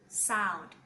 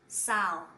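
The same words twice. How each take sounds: No difference in how they are said.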